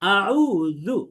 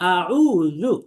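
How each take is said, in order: First: The middle consonant is a soft th-like sound. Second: The middle consonant is a soft th-like sound.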